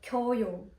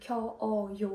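First: The two vowels merge into one syllable. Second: The two vowels are kept as separate syllables. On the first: The speaker calls it right. "у нас буде просто «кьою»" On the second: The speaker calls it wrong. "щоб не було ось цього подвоєння"

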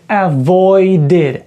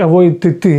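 First: The ending is an extra id syllable. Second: The ending is a bare t sound. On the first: The speaker calls it right. "ми ці закінчення читаємо як avoided" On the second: The speaker calls it wrong. "чи avoid ти. Незручно"

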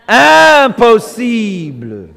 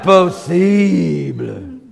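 First: It is said in a plain, normal voice. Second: It is said in a heavy, stuffy, weary voice.

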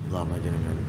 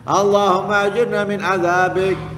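First: It is said softly. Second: It is said loudly.

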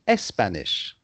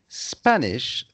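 First: An extra E vowel comes before the S sound. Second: The word begins directly with the S sound. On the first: The speaker calls it wrong. "they always put a E in front" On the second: The speaker calls it right. "instead of saying Spanish"

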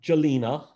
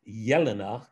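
First: The name begins with a hard J sound. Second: The name begins with a Y sound. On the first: The speaker calls it wrong. "which is not correct" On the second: The speaker calls it right. "It's actually a soft J"

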